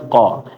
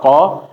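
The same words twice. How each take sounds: First: The qa is clipped off very briefly. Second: The qa is held for a normal length. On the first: "ini lebih pendek lagi" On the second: "kalau kita baca qa satu harokat"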